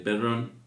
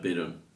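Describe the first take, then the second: First: The r sound is long and rolled. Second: The r sound is a single short tap. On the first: This is the original Italian surname. "con dos N" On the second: It was changed to be easier to pronounce. "con una sola R"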